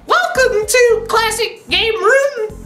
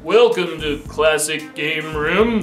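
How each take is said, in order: First: The voice is high, squeaky and cartoonish. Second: The voice is deep, smooth and radio-like. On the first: "Can you imagine if we switched voices?" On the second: "he's got that buttery radio voice"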